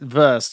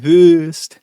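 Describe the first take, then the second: First: The vowel sounds like a plain English vowel. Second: The vowel sounds like a rounded German vowel. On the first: The speaker calls it wrong. "you can't say it Wurst" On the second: The speaker calls it right. "If you want to say it in a German way ... It has to be the Wurst"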